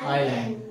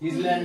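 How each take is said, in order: First: The word starts with an "eye" sound. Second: The word starts with an "iss" sound. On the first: The speaker calls it right. "এটা আইল্যান্ড। উচ্চারণ কি হয়?" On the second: The speaker calls it wrong. "ইসল্যান্ড ইসল্যান্ড নয়"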